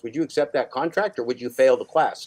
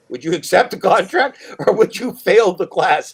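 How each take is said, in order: First: Said in the usual way. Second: Louder, insistent. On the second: Acted. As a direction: repeat it higher and louder, slowing on fail the class. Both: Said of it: "repeats the question louder".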